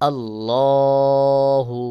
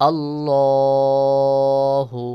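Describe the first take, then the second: No difference in how they are said.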